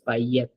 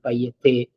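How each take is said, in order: First: The word ends without an extra final vowel. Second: The word ends with an extra final vowel. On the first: The speaker calls it right. "I'm going to read it as payet" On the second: The speaker calls it wrong. "and not payete"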